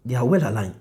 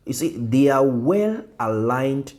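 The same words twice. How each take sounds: First: Said in the usual way. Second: "well" drawn out, slow emphatic pace; slow stress on well. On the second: Shown as a demonstration. Teacher to class, slow emphasis on "well". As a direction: lean on "well", stretch it out.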